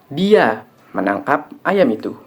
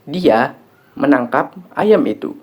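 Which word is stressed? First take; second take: dia; menangkap. First: The stress falls on the word dia. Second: The stress falls on the word menangkap. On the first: It was this person who caught it, not someone else. "Yang menangkap ayam itu adalah dia, bukan orang lain" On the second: The action was catching, not slaughtering or anything else. "Yang dilakukan adalah menangkap, bukan menyembelih"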